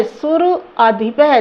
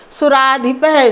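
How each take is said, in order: First: सुर अधिपः said slowly as two words, सुर then अधिपः; sandhi split apart. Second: Said in the usual way. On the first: Shown as a demonstration. Teacher shows students the sandhi split, slowly and clearly. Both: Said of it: "संधि देख लीजिए".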